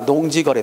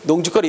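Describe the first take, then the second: First: No k sound comes before 'geori'. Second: A k sound comes before 'geori'. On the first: The speaker calls it right. "농직거리가 아니라 시작. 농지거리" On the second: The speaker calls it wrong. "우리가 평소 때 발음할 때 자꾸 농직거리, 농직거리 이렇게 발음할 때가 있거든? 잘못된 거다"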